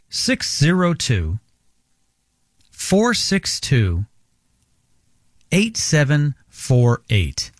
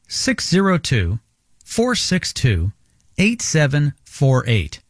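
First: The number is read more slowly. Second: The number is read at normal speed.

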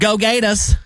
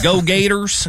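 First: The R is dropped, Boston style. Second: The R at the end is pronounced.

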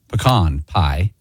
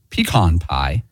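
First: It is said the Texas, Arkansas, Oklahoma way. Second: It is said the common Western US way.

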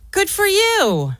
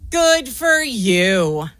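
First: It sounds warm and supportive. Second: It sounds angry and mad.

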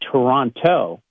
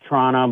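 First: It is the American way, with the second T. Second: It is an even more reduced local way.

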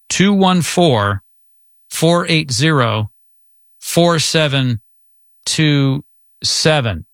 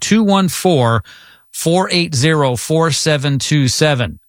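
First: The number is said more slowly. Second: The number is said at normal speed.

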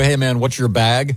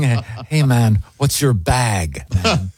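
First: It is said in a plain voice. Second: It is said in a hip sixties voice.

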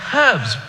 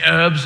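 First: It is said in a British accent, with H. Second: It is said in an American accent, no H.

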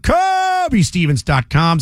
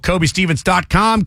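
First: It is said with extra emphasis and energy. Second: It is said plainly, without extra emphasis.

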